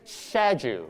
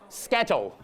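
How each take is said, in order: First: It is said in a British accent. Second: It is said in a Hong Kong accent. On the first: "British accent" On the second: "Hong Kong accent"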